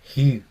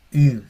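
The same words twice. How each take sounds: First: Ji said with a breathy h before the i; rough breathing on iota. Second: I said as a clean vowel with no h; just the bare vowel I, louder; I, no breath before it; smooth breathing on iota. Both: Shown as a demonstration. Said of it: "no, Ji".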